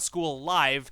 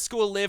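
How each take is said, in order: First: Live has a long vowel, rhyming with five. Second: Live has a short vowel, rhyming with give. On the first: The speaker calls it wrong. "and not School Live" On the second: The speaker calls it right. "I'm pretty sure it's School Live ... School Living Club"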